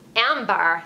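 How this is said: It is said in a Valley girl voice.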